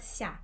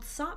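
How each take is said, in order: First: The S sound is soft, softened. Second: The S sound is hard, not softened. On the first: The speaker calls it right. "So it's a soft S" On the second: The speaker calls it wrong. "not sa"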